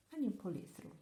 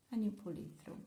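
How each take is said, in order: Both takes have the same delivery.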